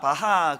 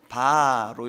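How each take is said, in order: First: It is said in a Gyeongsang regional accent. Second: It is said softly in a Seoul accent. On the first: The speaker calls it wrong. "저는 헬라어 히브리어를 경상도식으로 발음하는데요" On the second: The speaker calls it right. "약간 힘을 빼고 이제 서울식으로"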